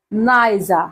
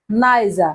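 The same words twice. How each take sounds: The two takes are said the same way.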